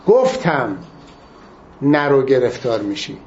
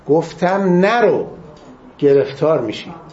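First: The stress falls on the word گفتم. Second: The stress falls on the word نرو. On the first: It stresses that the warning was given. "تأکید روی گفتم" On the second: It stresses what the warning said not to do. "تأکیدشون نرو"

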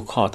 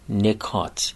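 First: The first vowel is not an i sound. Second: The first vowel is an i sound. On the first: The speaker calls it wrong. "در فارسی میگیم نکات، اما غلطه" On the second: The speaker calls it right. "به عربی باید به کسر نون تلفظ کنید"

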